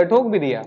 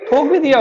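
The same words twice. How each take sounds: First: Said in the usual way. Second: Higher and louder, punching भी in ठोक भी दिया; excited repeat. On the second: Retold or imitated. Telling students how the old rickshaw man hit someone, excited. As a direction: burst out with the punchline of the crash.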